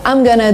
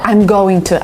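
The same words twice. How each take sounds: First: The words are reduced and linked together. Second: Each word is said separately and fully. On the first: The speaker calls it right. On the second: The speaker calls it wrong.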